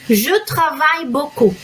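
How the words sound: It is pronounced with native French sounds. The speaker calls it right. "A pronúncia correta é"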